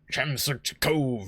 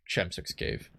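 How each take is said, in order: First: Slow, corrected cove with weight on cove; correcting to cove. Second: Said in the usual way. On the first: Shown as a demonstration. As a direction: set the record straight by landing on cove.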